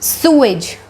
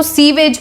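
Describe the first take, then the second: First: "सूएज" said as SOO-ij; teacher gives the correct form of sewage; right pronunciation. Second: "सीवेज" said as SEE-vej, with a v; teacher shows the common mistake; wrong pronunciation. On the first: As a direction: model "सूएज" with a long oo and no v. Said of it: "इसको कैसे pronounce करेंगे?". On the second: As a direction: give the mistaken "सीवेज" to warn against it. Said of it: "इसको सीवेज मत बोलना". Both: Shown as a demonstration.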